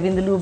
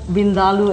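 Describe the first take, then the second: First: It is said with the anglicized pronunciation. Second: It is said with the Indian pronunciation. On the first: The speaker calls it wrong. "most people say Vindaloo, but that's not really the correct way" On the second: The speaker calls it right. "as it's correctly pronounced"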